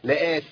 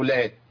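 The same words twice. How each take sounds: First: The final t is released with heavy breathiness. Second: The final t sound is not heard. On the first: "الهمس ما بقاش كده" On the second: "مفيش تاء طلعت"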